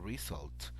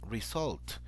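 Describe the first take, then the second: First: The stress is on the first syllable. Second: The stress is on the last syllable. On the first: The speaker calls it right. "So the stress goes at the in the first at the beginning of the word" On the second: The speaker calls it wrong. "The stress goes on the, at the end of the of the word"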